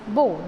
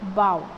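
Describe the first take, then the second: First: The vowel sounds like the one in go. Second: The vowel sounds like the one in cow. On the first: It is the noun meaning a knot or tie. "Then it gives the sound of O" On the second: It is the verb meaning to bend forward. "then it is pronounced as bow"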